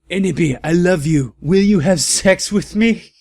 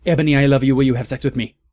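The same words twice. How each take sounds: First: Higher, louder swooning plea rising at the end; mock lovesick voice. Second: Louder, lovey-dovey plea; mock lovestruck villain. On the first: Villain proposing to Ebony, higher swooning mock plea. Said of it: "a lovey-dovey look in his eyes". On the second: Villain falling for Ebony, lightly hammed lovey-dovey plea. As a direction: swoon out the proposal. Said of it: "he said".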